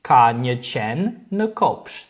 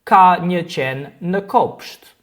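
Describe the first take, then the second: First: "Ka një qen në kopsht" repeated slowly, falling at the end; slow learner repeat of "Ka një qen në kopsht"; Albanian repeat for learners. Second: "ka një qen në kopsht" said slowly and clearly; slow Albanian model sentence. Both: Shown as a demonstration. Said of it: "Just like in these examples".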